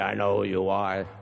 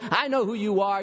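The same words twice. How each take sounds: First: It is said in a growling, demonic voice. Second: It is said in a plain reading voice.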